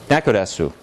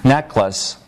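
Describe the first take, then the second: First: It has four syllables, each ending in vowels. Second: It has two syllables ending in consonants. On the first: "She stuck in a vowel that wasn't there" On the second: "This is two syllables in English"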